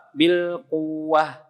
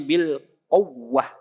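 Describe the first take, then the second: First: Bil quwwah very slow, ww even and flat; wrong, no nabr. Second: Bil quwwah slow, ww pushed up and pressed; with nabr. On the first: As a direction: say quwwah with no push on the ww. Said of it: "Yang salah". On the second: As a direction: lean on the ww of quwwah. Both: Shown as a demonstration.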